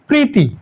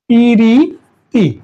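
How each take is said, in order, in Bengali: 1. প আর র ধ্বনি মিলে একটি গুচ্ছ তৈরি করে। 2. একটি ই স্বর প আর র ধ্বনিকে আলাদা করে দেয়।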